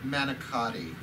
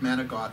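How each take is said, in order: First: The word ends with a full final vowel. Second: The word ends without a final vowel. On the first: This is the form for outsiders to the family's culture. The speaker calls it wrong. "sorry for you non-Italian. ... sits in my mouth like a piece of lead when I say it that way" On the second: This is the family's everyday way of saying it. The speaker calls it right. "my mom made manicot from scratch"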